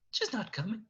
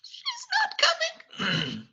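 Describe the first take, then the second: First: High, small, softer voice; Cogsworth, very nervous. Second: Tiny high squeak, drawn out slowly; Cogsworth, very nervous. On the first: Nervous servant confessing to Beast, meek and quiet. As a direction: shrink away while admitting it. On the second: Nervous servant repeats bad news to Beast, timid squeak. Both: Acted. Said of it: "very nervous looking".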